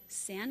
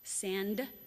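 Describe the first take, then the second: First: The final d sound is dropped. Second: The final d sound is pronounced.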